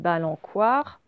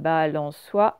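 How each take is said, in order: First: The consonant before 'oi' is a hard k sound. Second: The consonant before 'oi' is a soft s sound. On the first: The speaker calls it wrong. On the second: The speaker calls it right.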